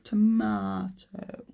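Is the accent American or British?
British. It is said in a British accent. "British English say tomato"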